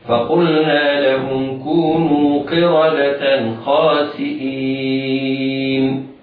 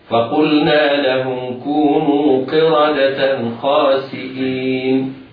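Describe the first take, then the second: First: The vowel before the final n is held moderately. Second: The vowel before the final n is held briefly. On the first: "والتوسط هكذا" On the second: "القصر هكذا"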